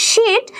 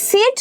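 First: শিট said with a hushing sh, like "sheet"; pron demo. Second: সিট said slowly with a dental s, like "sit"; pron demo. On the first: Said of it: "যখন আমি উচ্চারণ করব শিট". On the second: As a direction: say সিট with a hissing dental s, not sh. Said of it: "যখন আমি বলি সিট". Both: Shown as a demonstration.

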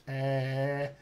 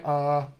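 First: Soft, drawn-out Scottish "uh"; Scottish hesitation. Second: Said in the usual way. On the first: Retold or imitated. Coach imitates his Scottish client, Scottish hesitation. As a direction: hold an Edinburgh Scottish thinking sound. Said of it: "says like that". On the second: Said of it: "different than mine".

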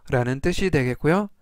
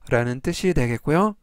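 The two takes are said the same way.

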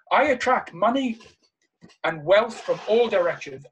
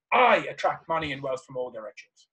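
First: "I attract money" loud and raised, pause before "and wealth"; emphatic affirmation. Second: "I" hit hard, then the rest run on lower; stress on I. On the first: Speaker demonstrating one way to say a money affirmation, emphatic and spaced out. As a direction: punch "money", pause, then land "all directions". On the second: Speaker demonstrating another way to affirm, leaning on "I" in one run. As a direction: punch "I", no pause before "and wealth". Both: Shown as a demonstration. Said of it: "you can say this in a number of ways".

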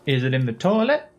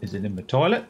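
First: "toilet" pushed higher and louder with a rise; louder emphatic repeat. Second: Said in the usual way. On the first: Shown as a demonstration. Vlogger repeats his own question more insistently, emphatic rising ask. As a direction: ask it again, harder, leaning on "toilet".

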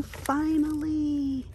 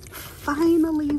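First: Breathless relief. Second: High, slow, joyful cry; elated. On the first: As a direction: let it melt out of you. Finds the sign she wanted. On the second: Finding the wanted sign at last, high and elated. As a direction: savour the relief of finding it. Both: Real, not acted.

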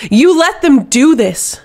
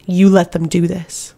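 First: Much higher, louder, slow bellow; furious slow bellow at her commander. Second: A simmering charge, held in check; quiet fury. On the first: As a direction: roar the accusation, drawn out. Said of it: "Astrid bellowed". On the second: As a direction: accuse her with contained fury. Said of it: "met it with a fury". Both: A narrator's reading.

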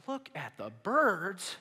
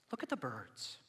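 First: Slow, louder disbelieving question; drawn-out, mock-incredulous repeat; incredulous echo. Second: Lower, softer gentle prompt; soft, understated invitation; calm instruction. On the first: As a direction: throw it back in exaggerated disbelief. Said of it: "You're probably thinking". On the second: Acted. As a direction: offer it quietly and simply. Calm verse before mocked reaction.

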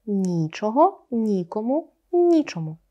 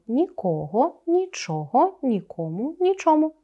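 First: Нічого, нікому, нічому with stress on the first syllable, НІчого; stress for impossibility. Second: Нікого, нічого, нікому, нічому with stress on the second syllable, ніКОго, ніЧОго; stress for absence. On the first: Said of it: "наголос маємо такий". (наголос на першому складі: ні́чого, ні́кому, ні́чому) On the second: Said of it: "вживаємо з різним наголосом залежно від значення". (наголос на другому складі: ніко́го, нічо́го, ніко́му, нічо́му) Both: Shown as a demonstration.

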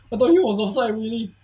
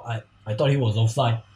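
First: Excited disbelief. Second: Said in the usual way. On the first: Real, not acted. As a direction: say it again in disbelief.

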